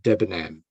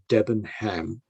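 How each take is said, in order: First: "Debenham" as DEBEN-am, h dropped; "Debenham" pronounced "Debenam"; silent H. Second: "Debenham" as DEBEN-HAM, h sounded; "Debenham" read as spelt. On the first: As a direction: drop the h in "Debenham". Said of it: "you don't pronounce the H". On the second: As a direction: pronounce a full "ham" ending in "Debenham". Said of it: "you don't say Debenham". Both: Shown as a demonstration.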